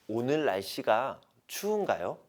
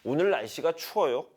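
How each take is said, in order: First: It is asked in a soft, kind tone. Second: It is asked in a plain, neutral tone.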